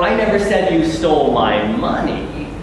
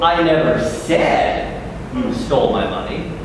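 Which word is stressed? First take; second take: money; said. First: The word "money" carries the strongest stress. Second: The word "said" carries the strongest stress. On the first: Something else was stolen. "but you stole my car" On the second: It was written rather than spoken. "but I wrote in an email to Monsignor"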